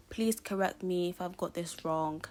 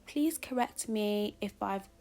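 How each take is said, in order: First: Said in the usual way. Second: Slow, lightly put-on British accent; a polite British teacher, slightly overdone. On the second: Teacher asking to be corrected on a name, mock British accent. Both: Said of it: "why am I doing a British accent wrong".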